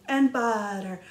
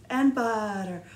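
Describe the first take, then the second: Both takes have the same delivery.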